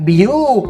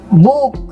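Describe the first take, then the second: First: It starts with the full letter name bee. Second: It starts with a plain b sound. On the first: The speaker calls it wrong. "nggak biuk, nggak gitu kan" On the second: The speaker calls it right. "Pada kata buku, apakah B-nya dibaca B? Kan tidak"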